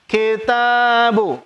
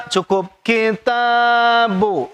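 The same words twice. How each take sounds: First: Kitabu chanted slowly, bu kept short; short vowel recitation. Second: Kitabu with short bu, chanted slowly; short vowel recitation. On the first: Teacher repeating the correct short kitabu for students. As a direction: say kitabu with a clipped final bu. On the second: Teacher showing students the short reading of kitabu. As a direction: recite kitabu without lengthening bu. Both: Shown as a demonstration. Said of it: "jangan ada yang baca panjang".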